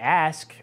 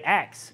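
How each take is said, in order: First: The s sound comes before the k sound. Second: The k sound comes before the s sound. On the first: This is the common general form. "we say ask" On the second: This is an older dialect form.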